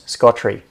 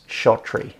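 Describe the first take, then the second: First: The name begins with an 'sk' sound. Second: The name begins with an 'sh' sound. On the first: The speaker calls it right. "I will say it the correct way first" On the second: The speaker calls it wrong. "for years I was pronouncing this as Shottree"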